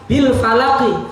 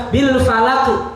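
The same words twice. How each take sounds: The two takes are said the same way.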